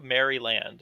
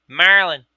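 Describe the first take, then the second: First: "Maryland" said as "Merry-Land"; spelled-out pronunciation. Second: "Maryland" loud, squashed into "Merlin"; mock Dundalk accent, punched out loudly; thick Dundalk accent. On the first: Retold or imitated. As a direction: split "Maryland" into two full words, merry plus land. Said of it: "the land of merry people". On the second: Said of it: "are you speaking English?".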